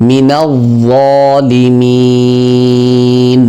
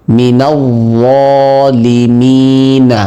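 First: Slow recited "যালিমিন", final syllable greatly drawn out; three-alif elongation. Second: Slow recited "যালিমিনা" with the final vowel sounded; voweled final nun. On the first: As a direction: chant "যালিমিন" with a long held "mee", closing on n. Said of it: "তিন আলিফ পরিমাণ টেনে পড়ব". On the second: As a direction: chant "যালিমিনা" slowly, ending on an open "na". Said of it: "আর যদি আমরা নুনকে সাকিন করি". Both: Shown as a demonstration.

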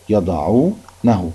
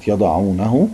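First: يضعونه very slowly, broken into parts; pronoun haa shown. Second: Said in the usual way. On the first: Shown as a demonstration. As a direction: split off the ending -hu in يضعونه, slowly. (نطق يضعونه ببطء مقطّعة لإبراز هاء الضمير) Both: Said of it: "اهي دي فيها هاء الضمير".

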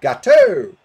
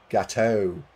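First: Very high, loud mock yell of Gateau; hammed-up shriek on the last vowel of Gateau; imitated shout. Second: Said in the usual way. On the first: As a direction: holler Gateau with a blaring, drawn-out "oh". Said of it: "Ogun is going". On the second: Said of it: "it's pronounced".

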